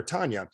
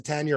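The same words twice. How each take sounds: First: Tanya said as TAHN-ya; Tanya with an open "ah"; broad first vowel. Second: Tanya said as TAN-ya; Tanya rhyming with "can ya"; flat first vowel. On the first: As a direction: say Tanya with an "ah", as in father. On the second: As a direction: say Tanya with the short "a" of cat. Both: Shown as a demonstration. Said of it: "depending how she says it".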